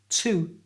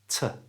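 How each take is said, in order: First: The vowel is a full oo sound. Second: The vowel is a weak uh sound. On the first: "take the oo sound from to" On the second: "change it for a schwa sound"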